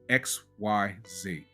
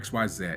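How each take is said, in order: First: The last letter is said as zee. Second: The last letter is said as Australian zed.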